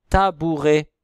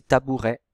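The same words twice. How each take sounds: First: Tabouret ending on a closed é, "tabouré". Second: Tabouret ending on an open è, "tabourè". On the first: Teacher to class, showing one ending, closed é. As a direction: say tabouret loudly with a closed final é. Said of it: "Il y en a qui disent aussi tabouret". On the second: Teacher to class, showing the other ending, open è. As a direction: tabouret said quickly with an open final è. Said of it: "Il y en a qui disent aussi". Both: Shown as a demonstration.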